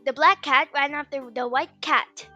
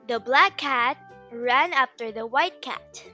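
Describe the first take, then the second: First: The sentence is spoken at a fast speed. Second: The sentence is spoken at a moderate speed.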